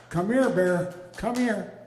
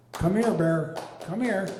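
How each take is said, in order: First: Louder call across the lawn, rising on the second here; calling the dog. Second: Louder call across the yard to a dog. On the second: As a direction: call him over, firm and loud. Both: Retold or imitated.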